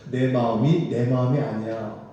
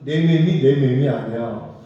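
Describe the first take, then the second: First: It is said in standard Korean. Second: It is said in a regional dialect.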